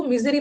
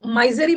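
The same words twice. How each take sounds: First: मिजरी with short "i" in first syllable; correct pronunciation मिजरी. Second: माइजरी with first syllable rhyming with "my"; mispronounced माइजरी. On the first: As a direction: say मिजरी as MIZ-uh-ree, not starting like "my". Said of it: "इसको मिजरी पढ़ना". (मिजरी, पहले अक्षर में छोटी इ के साथ "मि") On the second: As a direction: say माइजरी as MY-zuh-ree, with a long "ai". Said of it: "इसको माइजरी मत पढ़ना". (माइजरी, पहले अक्षर में "माइ" की आवाज़) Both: Shown as a demonstration.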